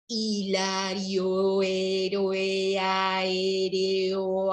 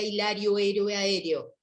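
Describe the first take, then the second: First: The words are spoken slowly. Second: The words are spoken quickly. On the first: "Más lento" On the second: "Más rápido"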